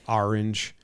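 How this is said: It is said with an East Coast accent. "I would say"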